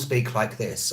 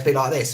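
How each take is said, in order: First: It is spoken slowly and carefully. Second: It is spoken quickly and casually. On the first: This is the style used for teaching. "I will speak a bit slower and slightly more like the Queen" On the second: This is the usual everyday style. "very quick"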